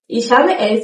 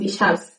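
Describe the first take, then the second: First: Habe and es are pronounced in full. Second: Habe es is shortened to one syllable.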